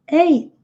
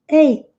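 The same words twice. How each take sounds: The two takes are said the same way.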